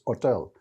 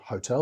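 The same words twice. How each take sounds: First: The first H sound is silent. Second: The first H sound is pronounced. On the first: The speaker calls it right. "is silent in Spanish" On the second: The speaker calls it wrong. "so it's not hotel"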